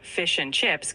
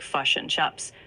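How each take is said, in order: First: Said in the usual way. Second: New Zealand "fush and chups", i turned to u; "fush and chups" in a New Zealand accent. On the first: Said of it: "British accent keeps it closer". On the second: Shown as a demonstration. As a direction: say fish and chips as "fush and chups". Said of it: "New Zealand accent often has".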